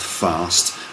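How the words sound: It is said in a southern English accent. "We'd say those things in London here"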